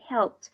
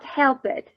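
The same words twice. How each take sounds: First: The ending is a short t sound, one syllable. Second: The ending is an extra syllable after help. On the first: The speaker calls it right. "Okay, helped" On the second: The speaker calls it wrong. "Not helped"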